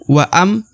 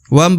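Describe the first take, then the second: First: The vowel is stretched out before the m. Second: The short vowel runs straight into the m. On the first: The speaker calls it wrong. "bukan waam" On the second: The speaker calls it right. "langsung masuk ke huruf mim"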